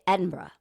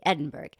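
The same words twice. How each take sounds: First: The last syllable is reduced, like 'bruh'. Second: The last syllable is said fully, like 'burg'. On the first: The speaker calls it right. "You got to say Edinburgh" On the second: The speaker calls it wrong. "I know not to say Edinburgh"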